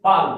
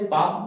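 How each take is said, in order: First: पाल said with a clear L sounded at the end, a bit louder; पाल with the written L pronounced; spelling pronunciation for kids. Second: पाम said as the plain spoken word, with no L sound; पाम with the L left out; correct silent-l palm. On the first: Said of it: "सिखाने के लिए बोलना पड़ता है बच्चे". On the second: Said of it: "लेकिन वहां पर सिखाने के लिए बोलना पड़ता है". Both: Shown as a demonstration.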